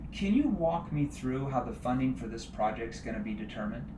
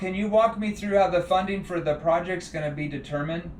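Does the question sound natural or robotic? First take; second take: natural; robotic. First: The question sounds relaxed and conversational. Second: The question sounds stiff and scripted. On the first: The speaker calls it right. "did you see how my tone?" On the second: The speaker calls it wrong. "Don't sound like a scripted robot"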